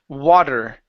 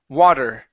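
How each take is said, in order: Both takes have the same delivery.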